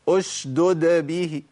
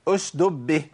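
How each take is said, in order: First: Both d sounds are clearly pronounced. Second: One d sound is dropped entirely. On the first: The speaker calls it right. "بس كده لازم ابين الدالين" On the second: The speaker calls it wrong. "جاب الساكنة وضيع المتحركة، ما ينفعش"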